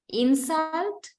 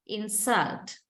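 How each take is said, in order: First: "Insult" stressed on IN, high and rising; noun stress on first syllable. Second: "insult" stressed on SULT, falling; verb stress on second syllable. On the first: Teacher reads the noun of the pair, first-syllable stress on "Insult". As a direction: punch IN of "Insult", lift the ending. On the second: Teacher reads the verb of the pair, second-syllable stress on "insult". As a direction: lean on SULT in "insult" and drop. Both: Shown as a demonstration. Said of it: "find the syllable which is stressed".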